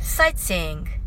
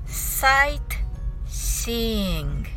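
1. その単語は速く言われています。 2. その単語はゆっくり言われています。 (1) "次に早く言ってみましょう。" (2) "はじめはゆっくりです。"

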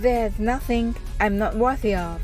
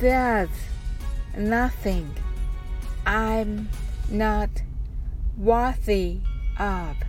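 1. この文は速く話されています。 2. この文はゆっくり話されています。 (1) "早く言ってみましょう" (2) "ゆっくり言ってみましょう"

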